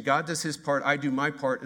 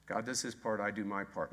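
First: Said in the usual way. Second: Wry quiet slogan. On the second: Shown as a demonstration.

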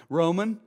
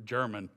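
First: Roman said higher and louder as the fix; corrective stress. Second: Said in the usual way. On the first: Real, not acted. Preacher corrects his slip, stressing Roman. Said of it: "not, not German". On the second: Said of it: "I don't know why I went German there".

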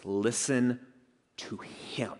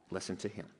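First: "Listen ... to him", broken by a pause, ending hushed; with emphasis. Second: Very soft, low "Listen to him" in one breath; hushed echo. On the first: God commanding the disciples, "Listen to him" in emphatic, spaced-out words. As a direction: set "Listen" apart, then drop "to him" to a whisper. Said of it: "And then with emphasis". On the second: Preacher repeating God's command to the congregation, hushed echo. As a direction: let the words sink in, barely voiced. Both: Retold or imitated.

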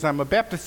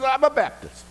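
First: Said in the usual way. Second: High, thrilled squeal; excited echo. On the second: Retold or imitated. Rescuer squealing in delight at a fellow Baptist. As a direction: shriek it back with joy.

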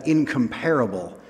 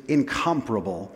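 First: "incomparable" stressed on PAR, like in-com-PAIR-uh-bul; common mispronunciation. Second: "incomparable" stressed on COM, like in-COMP-ruh-bul; correct pronunciation. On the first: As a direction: put the beat on the third syllable of "incomparable". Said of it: "emphasis should be on the other syllable". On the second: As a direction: put the beat on the second syllable of "incomparable". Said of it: "I guess the correct pronunciation is". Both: Shown as a demonstration.

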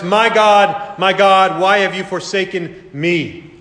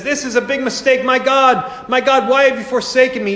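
First: Cry of anguish. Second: Much higher, lightly hammed-up voice of a bewildered man; mock confused Jesus. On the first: Acted. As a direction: call out to God in desperate anguish. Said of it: "He shouts into the darkness". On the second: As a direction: play a panicked Jesus the way sceptics picture him. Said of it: "they said".

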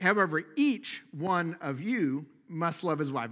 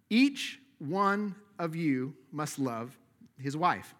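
First: Said in the usual way. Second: Slow, every word weighed, "Each" hit hardest; stress on each. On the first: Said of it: "It's like, yes, you, Carl". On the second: Shown as a demonstration. Pastor pressing every husband in the room, slow stress on "Each". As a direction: drive home "Each" as if to one man.

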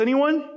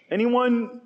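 First: Much higher, louder hammed-up repeat; mock robber call, even higher. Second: Higher, louder hammed-up question that falls at the end; mock robber call. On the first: Robber asking the crowd again, higher hammed-up call. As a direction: pitch it up like a last eager plea to the crowd. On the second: Robber asking the crowd for volunteers, falling mock call. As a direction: toss it out to the crowd, half-expecting no takers. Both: Robbers recruiting in city gates.

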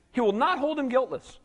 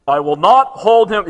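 First: Said in the usual way. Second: A loud, slow declaration on NOT; loud and slow with heavy weight on not; booming divine warning. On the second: Acted. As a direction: thunder it out like God from the mountain. Booms God's warning from the verse.

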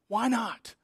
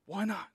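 First: Said in the usual way. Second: Hushed repeat of why not; soft echo. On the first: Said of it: "repeated rhetorical question". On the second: Shown as a demonstration. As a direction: repeat it much softer, falling. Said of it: "quiet echo of question".

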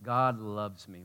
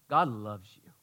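First: God loves me, said very slowly, each word weighted; slow deliberate God loves me; slow emphasis. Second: Said in the usual way. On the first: Shown as a demonstration. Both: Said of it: "when I say".

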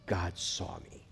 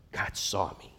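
First: Hushed, slow. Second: Said in the usual way. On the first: Shown as a demonstration. Translating El Roi slowly.

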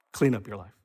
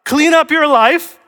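First: Low, soft drop in voice; hushed, lowered consequence; gentle afterthought. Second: High, loud, drawn-out demand; hammed-up ultimatum, pitched way up; demanding condition. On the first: Acted. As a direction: let it fall quietly as a mere result. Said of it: "That's the order". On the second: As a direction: set it as a strict precondition, voice raised. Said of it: "that's not the order".

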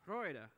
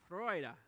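The two takes are said the same way.

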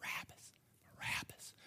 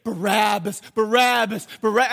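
First: Whispered name, planted in the crowd; conspiratorial whisper. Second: Loud, high rallying chant; chanted, pump the crowd up with the name; hype man chant. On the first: Chief priests stirring up the people, secretive whisper. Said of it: "stirring up the people". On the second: Hype man working up the crowd, loud chanting. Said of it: "hype man right here saying". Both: Acted.

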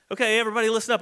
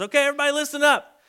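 First: Said in the usual way. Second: Much higher, louder and fast call for attention; calling out to a crowd. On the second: Retold or imitated. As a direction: gather a whole crowd with it.

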